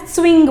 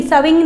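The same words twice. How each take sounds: First: स्विंग as one tight cluster, sw with no vowel; teacher giving the right way; correct pronunciation. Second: स्विंग wrongly split as sa-wing with an extra vowel; teacher showing the common mistake; wrong pronunciation. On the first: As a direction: say स्विंग with s and w joined. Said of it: "स्विंग बोलना है". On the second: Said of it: "नहीं, स्विंग नहीं बोलना है". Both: Shown as a demonstration.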